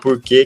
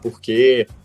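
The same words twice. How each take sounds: First: The R has the countryside interior sound. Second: The R has the Rio de Janeiro sound. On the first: "que é o R interiorano, que é o que eu uso" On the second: "com R carioca"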